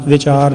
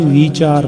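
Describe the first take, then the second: First: ਵਿਚਾਰ with a short i, "vi-chaar"; short-vowel misreading. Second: ਵਿਚਾਰ with a long ee, "vee-chaar"; long first vowel. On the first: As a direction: keep the first syllable of ਵਿਚਾਰ short. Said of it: "ਵਾਵੇ ਨੂੰ ਸਿਹਾਰੀ ਨਹੀਂ ਦੇਣੀ". (ਵਿਚਾਰ, ਵਾਵੇ ਨੂੰ ਸਿਹਾਰੀ ਨਾਲ) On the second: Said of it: "ਇਹਨੂੰ ਵਿਚਾਰ ਪੜ੍ਹਨਾ". (ਵਿਚਾਰ, ਵਾਵੇ ਨੂੰ ਬਿਹਾਰੀ ਦੇ ਕੇ) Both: Shown as a demonstration.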